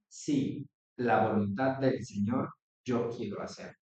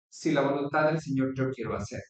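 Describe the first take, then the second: First: There is a pause after the first word. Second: It runs on without a pause after the first word. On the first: It firmly affirms wanting to do God's will. "le ponemos una coma, ... a manera de afirmación" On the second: The promises depend on wanting to do God's will. "siempre y cuando yo quiera hacer la voluntad"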